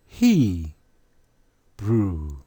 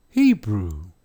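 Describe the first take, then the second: First: He, pause, brew, each drawn out; He brew, syllable by syllable; broken into syllables. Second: Said in the usual way. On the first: Shown as a demonstration. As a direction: split He brew to show the final "oo". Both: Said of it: "What sound did the W make at the end?".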